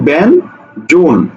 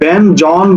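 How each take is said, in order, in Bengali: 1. দ্বিতীয় সিলেবলে একটি বদ্ধ 'oh' স্বরধ্বনি আছে। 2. দ্বিতীয় সিলেবলে একটি মুক্ত 'aw' স্বরধ্বনি আছে। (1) "আমরা উচ্চারণ করি কি ব্যান জোন" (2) "আমরা কিন্তু ব্যান জন বলি না"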